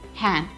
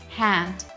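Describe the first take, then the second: First: The final d is dropped. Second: The final d is clearly pronounced. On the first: The speaker calls it right. "We'll only say hand because it is followed by a consonant sound" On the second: The speaker calls it wrong. "we are not pronouncing it as hand because the D is deleted there"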